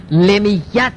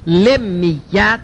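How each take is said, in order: First: لمیت said without the doubled consonants, slowly; the wrong way, لمیت with a single lam and mim; wrong pronunciation. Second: لمیت with both lam and mim doubled, said slowly; correct pronunciation. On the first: Teacher showing students the mistaken form, slowly. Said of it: "لمیت نیست". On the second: Teacher giving students the right form, slowly and deliberately. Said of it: "لمیت اینجوری". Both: Shown as a demonstration.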